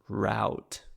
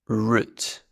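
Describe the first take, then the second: First: It is said in an American accent. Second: It is said in the speaker's own accent.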